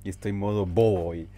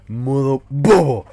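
First: Said in the usual way. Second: Slow, loud and silly; goofy drawn-out shout. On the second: Acted. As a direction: stretch it out like a goof.

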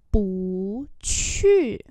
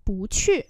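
First: Two drawn-out syllables; slow and separated; slow demonstration. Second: Said in the usual way. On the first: Shown as a demonstration. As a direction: model both tones slowly. Teacher repeats phrase slowly.

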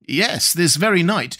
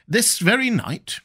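First: Said in the usual way. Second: High, slow, incredulous "This very night?" with "very" stressed; astonished question. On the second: A narrator's reading. Conseil to the professor, startled and disbelieving. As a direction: sound amazed that it happened "this very night".

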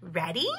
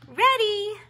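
First: Said in the usual way. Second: Much higher, louder ready; keen and bright answer; eager little bear. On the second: A narrator's reading. Little bear answering his sister eagerly. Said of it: "nodded Murray".

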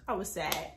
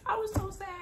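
First: Said in the usual way. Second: "so" pitched up high in "I was so sad"; stress on so. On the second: Shown as a demonstration. "so" lifted high to stress how sad she was. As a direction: lean hard on "so", up high and sadly.

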